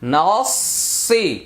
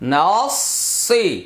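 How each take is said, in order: Both takes have the same delivery.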